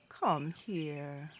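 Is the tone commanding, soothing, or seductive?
soothing. The tone is gentle and soothing. A parent is comforting a hurt child. "A woman may say to her child who's hurt herself"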